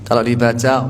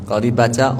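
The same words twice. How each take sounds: No difference in how they are said.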